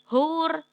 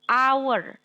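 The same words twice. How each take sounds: First: The word begins with an audible h sound. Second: The word begins with a vowel, h silent. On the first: The speaker calls it wrong. "bacanya bukan hour" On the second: The speaker calls it right. "cara bacanya A"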